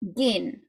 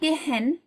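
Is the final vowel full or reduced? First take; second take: reduced; full. First: The final vowel is reduced to uh. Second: The final vowel is a full e sound. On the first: The speaker calls it right. "mainly the schwa goes before an n" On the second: The speaker calls it wrong. "It's not gehen"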